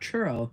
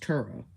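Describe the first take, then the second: First: The word begins with a ch sound. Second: The word begins with a plain t sound. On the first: The speaker calls it wrong. "It's not churro" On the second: The speaker calls it right. "it's Turo"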